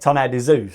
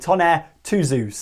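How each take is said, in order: First: The middle number is said as French deux. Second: The middle number is said as English two. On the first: "in French, how that's pronounced is deux" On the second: "It'll be a two"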